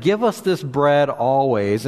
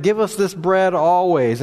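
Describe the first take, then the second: First: Said in the usual way. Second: Eager demand. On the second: Retold or imitated. Pastor voicing the crowd begging Jesus, eager and raised. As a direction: ask for it like a hungry crowd pressing Jesus.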